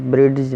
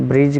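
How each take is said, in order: First: "برڈج" with a D sounded before the J; wrong pronunciation. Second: "برج" with no D before the J; silent D. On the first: Teacher showing what we won't say, mispronounced with D sounded. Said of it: "برڈج نہیں کہیں گے". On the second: Teacher giving the correct word, said with silent D. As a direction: go straight from the vowel to J in "برج". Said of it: "برج کہیں گے". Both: Shown as a demonstration.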